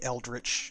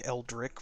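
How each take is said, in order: First: The name ends with a ch sound. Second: The name ends with a k sound. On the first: The speaker calls it right. "I think that it's supposed to be Eldritch" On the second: The speaker calls it wrong. "which is how I pronounced it in previous streams"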